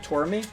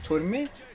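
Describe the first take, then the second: First: The name is said with an English pronunciation. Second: The name is said in its original pronunciation. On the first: "if you anglicize that pronunciation, you'd pronounce it like Tormy" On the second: "His name is Turmi"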